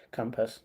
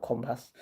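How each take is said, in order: First: Compass said with a short uh vowel, like cum-pass; correct pronunciation. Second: Compass said with an open ah vowel, like com-pass; wrong pronunciation. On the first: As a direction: stress the first syllable of Compass, cum-pass. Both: Shown as a demonstration. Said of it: "not compass".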